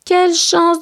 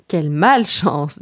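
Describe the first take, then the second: First: High-pitched exclamation, lightly acted fright; trembling with fear. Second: Trembling with fear. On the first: Boy robbed by three thieves, high-pitched mild fright. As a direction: cry out, mildly scared. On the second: Acted. Reader corrects the robbed boy's line, low understated fear. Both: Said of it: "tremblant de peur".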